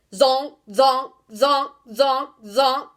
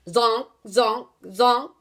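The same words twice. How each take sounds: First: Loud, sharp barks; loud barking zonks; barked. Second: Said in the usual way. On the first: A narrator's reading. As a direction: bark each zonk out loud. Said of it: "he barked". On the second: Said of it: "an example of onomatopoeia".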